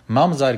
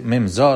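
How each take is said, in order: First: Said in the usual way. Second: ממזר read as two words, "mum zor"; split-word reading. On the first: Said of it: "ממזר, כסיב". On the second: Shown as a demonstration. Teacher explains the written word to students, ממזר split as "mum zor". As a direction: say ממזר as "mim-ZOR", with an open o at the end. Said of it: "דאס פראבלעם איז, א ממזר".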